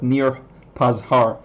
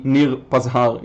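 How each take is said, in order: First: Nir Pazhar with an English r and flat vowels. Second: Nir Pazhar in a Hebrew accent with clean open vowels. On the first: Explaining the name to a viewer, slow English pronunciation. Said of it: "in English". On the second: Showing a viewer his name in Hebrew, Hebrew accent. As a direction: say "Nir Pazhar" as an Israeli would, rolled r. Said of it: "gonna be Nir Pazhar in Hebrew". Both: Shown as a demonstration.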